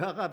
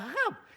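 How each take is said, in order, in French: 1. Le mot est prononcé de manière simple et neutre. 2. Le mot est prononcé de manière méprisante, avec une connotation péjorative. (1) "ça va" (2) "c'est la manière de prononcer l'arabe, ça peut être choquant"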